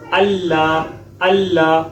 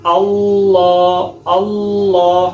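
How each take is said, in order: First: اللہ with a light thin lam; wrong thin lam. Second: اللہ with a full, dark, drawn-out lam; heavy lam. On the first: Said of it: "یہ غلط ہے". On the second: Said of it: "لام کو موٹا کرنا ہے". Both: Shown as a demonstration.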